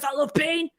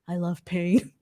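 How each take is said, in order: First: It sounds like a big, tough, macho guy. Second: It sounds like an unsettling, creepy guy.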